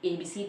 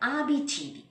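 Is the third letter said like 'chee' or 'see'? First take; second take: see; chee. First: The letters are said the English way, C as 'see'. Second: The letters are said the Italian way, C as 'chee'. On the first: The speaker calls it wrong. "എ ബി സി ഡി അല്ല" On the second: The speaker calls it right.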